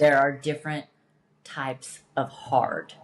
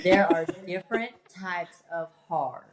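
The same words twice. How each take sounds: First: Deliberate, measured "There are different types of hard"; emphatic point. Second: "There are different types of hard" repeated through a laugh; playful laughing retake of "There are different types of hard". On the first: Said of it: "Say that one more time". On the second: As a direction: give the line again, amused at being asked. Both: Shown as a demonstration.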